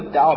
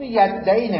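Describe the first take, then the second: First: The word ends in an 'aa' vowel. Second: The word ends in an 'ee' vowel. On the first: The speaker calls it right. "ولی یدعا بخوانید" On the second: The speaker calls it wrong. "یدعی نمیشه"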